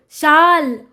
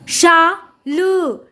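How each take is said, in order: First: Said in the usual way. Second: शाल very slowly, as शा … ल; syllable by syllable. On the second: Shown as a demonstration. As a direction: sound out शाल in two separated parts. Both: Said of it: "जोड़कर पढ़ेंगे".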